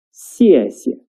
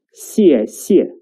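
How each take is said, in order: First: 谢谢 with the second 谢 short and light; neutral-tone 谢. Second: 谢谢 with two equally full falling fourth tones; both syllables fully toned. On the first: Teacher modelling a word for learners, 谢谢 ending short and light. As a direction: let the second syllable of 谢谢 drop off short and light. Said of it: "which is short and light". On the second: Teacher showing learners the mistake, 谢谢 with both syllables falling fully. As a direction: stress the second 谢 of 谢谢 as fully as the first. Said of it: "not 谢谢". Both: Shown as a demonstration.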